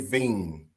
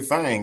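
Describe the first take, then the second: First: It is said with a standard accent. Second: It is said with a Southern accent.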